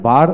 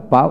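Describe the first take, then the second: First: বার with the final r pronounced; r sounded. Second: বা with no final r; non-rhotic বা; r dropped. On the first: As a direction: close বার on an audible r. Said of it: "এখানে বার উচ্চারণ হয়". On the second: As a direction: leave বা open on "aa", r silent. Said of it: "বা উচ্চারণ কম হয়". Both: Shown as a demonstration.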